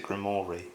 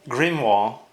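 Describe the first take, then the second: First: Grimoire said as "grim-OR-ee"; common mispronunciation. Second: Grimoire said as "grim-WAR", silent final e; supposed pronunciation. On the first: Reviewer quoting how everybody says it, Grimoire as "grim-or-ee". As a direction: sound the final e of Grimoire, "grimory". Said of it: "I hear everybody pronounce it". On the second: Reviewer showing the pronunciation they were told, Grimoire as "grim-wahr". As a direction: say Grimoire French-style, ending in "wahr". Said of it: "supposed to be pronounced". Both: Shown as a demonstration.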